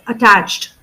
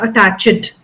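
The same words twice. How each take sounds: First: The d sound follows ch immediately. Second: A gap or vowel separates ch and d. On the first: The speaker calls it right. "after ch, immediately we have to say the d sound" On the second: The speaker calls it wrong. "So it is not attached"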